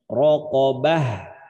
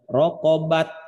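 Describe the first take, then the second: First: The word ends with an h sound. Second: The word ends with a t sound. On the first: The speaker calls it right. "tapi bacanya rokobah" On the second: The speaker calls it wrong. "bukan dibaca rokobat"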